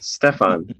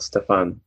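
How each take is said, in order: First: Stefan with a clear "fan" ending; correct pronunciation. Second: Stefan with an "eh" vowel, "Ste-fen"; wrong pronunciation. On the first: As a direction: say Stefan the Bulgarian way. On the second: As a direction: Stefan the English way. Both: Shown as a demonstration. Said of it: "not Stefan".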